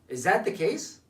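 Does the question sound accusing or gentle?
accusing. The question is asked in a hard, accusing tone. The asker is confronting the listener about wrongdoing. The speaker calls it wrong. "the tonality was different"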